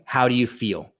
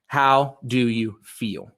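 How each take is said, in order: First: Said in the usual way. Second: Very slow, each word spaced out; said slowly. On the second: Shown as a demonstration. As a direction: drag it out so people can write it down. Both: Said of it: "I'm gonna go slow".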